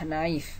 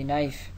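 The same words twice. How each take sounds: First: The initial k sound is pronounced. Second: The initial k sound is silent. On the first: The speaker calls it wrong. "Jangan dibaca knife" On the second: The speaker calls it right. "diselenkan itu huruf k-nya"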